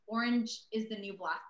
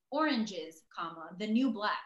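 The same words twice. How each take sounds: First: Said in the usual way. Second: "Oranges" punched, pause, then "the new black" set apart; wrong emphasis. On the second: Retold or imitated. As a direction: split it after "Oranges" as if at a comma. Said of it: "put the wrong emphasis".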